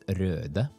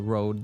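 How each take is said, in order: First: The vowel is a rounded Norwegian ö sound. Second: The vowel is a plain English o sound. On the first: This is how Norwegians read the name. "this reads Röde for us Norwegians" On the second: This is how the company itself says the name. "So they say Rode"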